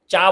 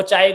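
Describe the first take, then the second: First: चाय cut down to चा, final y dropped; toddler's mispronunciation. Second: Said in the usual way. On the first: Retold or imitated. (चाय का आख़िरी य छोड़कर बच्चे जैसा चा) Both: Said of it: "वो चाय को चा बोलता होगा".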